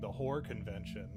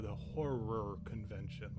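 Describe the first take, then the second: First: Horror is squeezed into one syllable. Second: Horror is said clearly with two syllables. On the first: The speaker talks lazily and the word gets misheard. The speaker calls it wrong. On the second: The speaker corrects the misunderstanding. The speaker calls it right. "I have to then enunciate and say"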